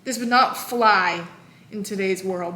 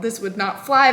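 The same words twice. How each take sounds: First: "not" drawn out and leaned on, slower; stress on not. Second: Said in the usual way. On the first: Real, not acted. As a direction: lean hard on "not".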